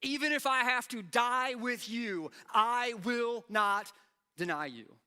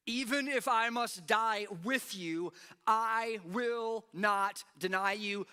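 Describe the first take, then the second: First: Loud and high, I WILL NOT drawn out slowly; emphatic vow. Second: Loud, high and slow, every word pressed; emphatic vow. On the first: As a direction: stretch out I will not, then land deny you. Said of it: "the way that I said it". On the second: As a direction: declare it slowly with full force. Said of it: "Notice the exclamation point". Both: Shown as a demonstration.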